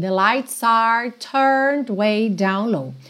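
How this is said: The R after vowels is clearly pronounced.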